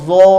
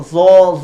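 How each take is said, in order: First: "zo" with the tongue tip out between the teeth; right way. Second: "zo" said with the tongue kept inside; wrong way. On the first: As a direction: show the correct version. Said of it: "Lidahnya tidak keluar, kurang tepat". ("zo" yang benar, lidah keluar) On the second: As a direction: show the incorrect version. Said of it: "Jadi bukan zo". ("zo" yang salah, lidah tidak keluar) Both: Shown as a demonstration.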